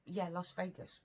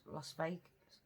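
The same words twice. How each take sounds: First: "Yeah, Las Vegas" settled, tune falling; "Yeah, Las Vegas" confirmed firmly, no rise; confident confirmation. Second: "Las Vegas" asked with a rising, unsure tune. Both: Real, not acted. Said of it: "where did he say it was?".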